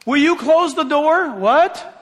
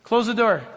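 First: Exasperated parent, louder and higher; raised voice. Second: Said in the usual way. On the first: Acted. Parent ordering a kid who ignored them, raised voice. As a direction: raise your voice so the kid hears. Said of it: "We have to raise our voice for some". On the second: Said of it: "We have to raise our voice".

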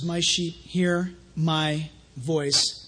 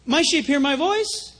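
First: Very slow, lowered scripture reading; slow solemn quote. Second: Said in the usual way. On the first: Real, not acted. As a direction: let each word land slowly. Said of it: "Now listen". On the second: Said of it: "built into that verse".

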